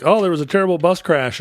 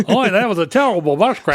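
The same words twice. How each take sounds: First: Mock Australian-American accent. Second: Mock careful American accent. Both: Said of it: "speaks in the slow, careful way ... hitting the R's too hard".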